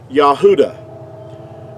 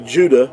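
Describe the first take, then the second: First: The name begins with a Y sound. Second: The name begins with a J sound. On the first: The speaker calls it right. "that's the way that you would pronounce it" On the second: The speaker calls it wrong. "totally inaccurate because there's no J sound in ancient Hebrew"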